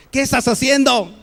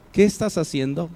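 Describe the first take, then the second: First: Higher and louder, a scolding ¿Qué estás haciendo?; sharp angry demand. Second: Said in the usual way. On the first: Shown as a demonstration. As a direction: snap ¿Qué estás haciendo? like catching someone out. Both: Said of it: "lo puedo decir de diferente forma".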